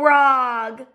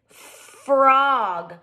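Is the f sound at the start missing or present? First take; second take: missing; present. First: The word starts without the f sound. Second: The word starts with the f sound. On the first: The speaker calls it wrong. "It's not called a rog" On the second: The speaker calls it right. "I'm forgetting the in frog"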